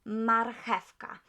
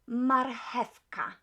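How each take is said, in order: Both takes have the same delivery.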